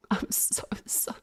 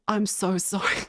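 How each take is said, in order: First: Hushed, guilty whisper of "sorry"; whispered apology. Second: Said in the usual way. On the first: Real, not acted. Streamer apologizing to chat, whispered and guilty. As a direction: whisper it, softer and sheepish. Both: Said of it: "apology repeated in whisper".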